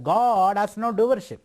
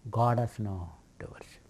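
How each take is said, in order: First: Each word weighted, slowed down; slow emphatic statement. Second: Soft, unvoiced whisper; whispered aside. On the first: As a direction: declare it slowly, as doctrine. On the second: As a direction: breathe it like a secret. Same line repeated, hushed. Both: Shown as a demonstration.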